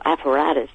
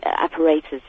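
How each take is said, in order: First: Apparatus with an open "a" in the third syllable; alternative pronunciation. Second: Apparatus with a long "ay" in the third syllable; first pronunciation. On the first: Caller correcting to their term, apparatus said as "appa-RAT-us". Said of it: "as they call it". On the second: Caller describing forensic kit, apparatus said as "appa-RAY-tus". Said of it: "or apparatus, as they call it". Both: Shown as a demonstration.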